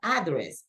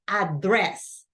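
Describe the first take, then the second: First: The stress is on the first syllable. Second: The stress is on the second syllable. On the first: The speaker calls it wrong. "it's not address" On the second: The speaker calls it right. "the stress goes in the second syllable"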